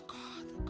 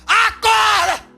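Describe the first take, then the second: First: The word is said softly and gently. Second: The word is shouted loudly and impatiently. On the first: Waking someone gently takes a long time. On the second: Waking someone impatiently works in seconds.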